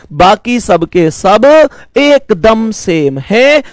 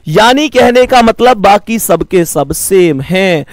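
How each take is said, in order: First: Slow emphatic restatement. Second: Said in the usual way. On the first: Shown as a demonstration. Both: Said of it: "बाकी सबके सब कैसे हैं?".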